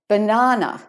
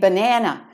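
First: It is said with an Australian accent. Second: It is said with an American accent.

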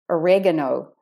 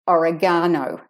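First: It is said with American syllable stress. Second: It is said with Australian syllable stress.

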